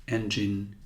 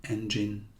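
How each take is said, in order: No difference in how they are said.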